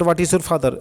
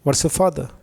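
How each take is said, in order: First: Each word is said separately, including 'is'. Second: 'What is' is contracted into 'what's'. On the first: It is being read out word by word. "Reading word to word" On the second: It is spoken fluently. "ये एक अलग चीज है"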